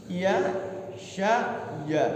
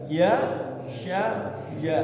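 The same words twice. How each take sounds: No difference in how they are said.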